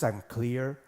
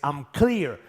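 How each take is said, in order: First: It is said flatly and calmly, like reading. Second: It is said loudly with strong energy and emotion. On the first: It is a mere affirmation. "an affirmation is ... as you were just reading from a book" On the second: It is a power statement that is felt. "A power statement is ... as you raise your voice"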